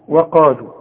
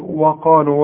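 First: The opening waw sound is light and thin. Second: The opening waw sound is heavy and full. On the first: The speaker calls it right. "الواو دائما في القرآن مرقق" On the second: The speaker calls it wrong. "وده خطأ"

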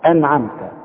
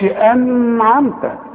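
First: The n is said clearly without a hum. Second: The n is held with a nasal hum. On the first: The speaker calls it right. "العلامة انها عليها سكون" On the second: The speaker calls it wrong. "ما اقولش انعمت"

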